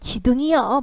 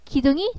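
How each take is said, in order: First: The word begins with a J sound. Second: The word begins with a hard G sound. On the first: This is a dialect form. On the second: This is the standard form.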